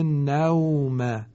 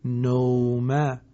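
First: The vowel before w sounds like a. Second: The vowel before w sounds like o. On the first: The speaker calls it right. "کلمه نوم" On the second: The speaker calls it wrong. "اشتباهاً نوم ممکن است خوانده شود"

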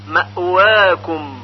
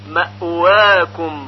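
The two takes are said the same way.

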